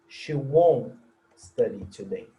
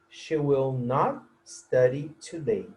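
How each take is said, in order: First: The words 'will not' are contracted to 'won't'. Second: The words 'will not' are said in full.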